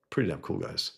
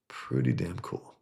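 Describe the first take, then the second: First: Said in the usual way. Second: Lower, slower "Pretty damn cool"; savored repeat. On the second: Shown as a demonstration.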